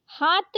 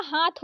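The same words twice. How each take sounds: First: हाथ said as haat, plain t; wrong त for थ. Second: हाथ ending in breathed th; correct aspirated थ. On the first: Teacher showing the mistake, हाथ with plain t. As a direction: end हाथ without a puff. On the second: Teacher correcting it, हाथ with aspirated th. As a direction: puff the थ in हाथ. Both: Shown as a demonstration. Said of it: "हाथ नहीं होता हाथ होता".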